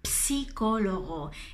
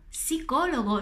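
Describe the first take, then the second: First: The word starts with an audible ps sound. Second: The word starts with a plain s sound. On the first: The speaker calls it wrong. "no es psicólogo" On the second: The speaker calls it right. "La PS a inizio di parola non ha questo suono ps"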